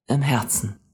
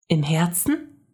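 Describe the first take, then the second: First: Even, reassuring reply; calm confirmation. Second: Put-on higher child's voice, rising; girl checking she understood; wondering question. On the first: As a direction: confirm it gently. Man gently confirms. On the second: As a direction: ask it with wonder. Mia asks, man confirms. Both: A narrator's reading.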